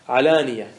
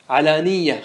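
First: The y sound near the end is single. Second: The y sound near the end is doubled. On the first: The speaker calls it right. "كلها بالتخفيف" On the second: The speaker calls it wrong. "علانية خطأ"

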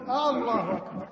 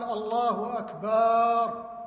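First: The opening a of the first word is stretched. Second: The vowel after b is stretched. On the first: Is God the greatest? "مد همزة الله" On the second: The meaning is distorted. "مد الباء"

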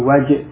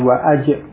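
First: The 'wa' runs straight into the next consonant. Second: A glottal stop and vowel follow 'wa'. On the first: The speaker calls it right. "hamzahnya wasal ya wajib ... tapi wajib" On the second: The speaker calls it wrong. "bukan wa'ajib"

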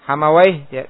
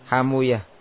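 First: The name ends with the syllable 'wayh'. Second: The name ends with the syllables 'u-yah'. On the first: "dibaca apa?" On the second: "dengan mensukun wawunya dan membomah apa yang sebelumnya"

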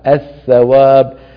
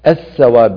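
First: The first consonant is pronounced as a th. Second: The first consonant is pronounced as an s. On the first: The speaker calls it right. "لا الثواب" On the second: The speaker calls it wrong. "الثواب بالسين"

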